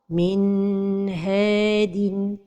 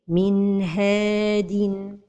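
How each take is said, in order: First: The N is held too long before H. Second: The N flows smoothly into the H. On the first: The speaker calls it wrong. "c'est de prolonger sans temps" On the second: The speaker calls it right. "la prononciation correcte est"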